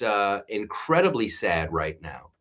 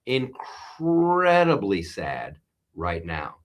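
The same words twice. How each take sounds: First: Said in the usual way. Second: Slow, somber repeat; sad. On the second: Real, not acted. Host slowly repeats his grief over the Reiner news. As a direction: let the sadness sink in.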